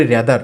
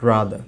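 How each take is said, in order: First: "rather" as RE-dar, with the final r sounded; mispronounced rather. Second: "rather" as RAA-dhuh, ending in a schwa; silent final r. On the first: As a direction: say "rather" with a front e vowel and a hard closing r. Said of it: "ভুল উচ্চারণ". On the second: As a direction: say "rather" low with a long a and no closing r. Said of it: "শেষের রটা কিন্তু শোনা যাচ্ছে না". ("rather"-এর শেষের র বাদ দিয়ে বলা) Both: Shown as a demonstration.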